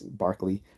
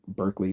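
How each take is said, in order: First: The first syllable sounds like 'bar'. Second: The first syllable sounds like 'bur'. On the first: The speaker calls it right. "but it's Barkley" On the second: The speaker calls it wrong. "most people pronounce it wrong"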